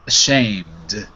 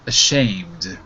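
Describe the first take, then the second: Both takes have the same delivery.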